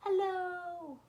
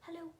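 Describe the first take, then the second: First: It is said very loudly. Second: It is said very quickly.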